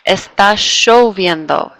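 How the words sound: The ll is said with an sh sound.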